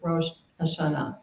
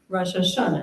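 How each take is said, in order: First: It is said in non-Ashkenazi pronunciation. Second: It is said in Ashkenazi pronunciation. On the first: "instead of"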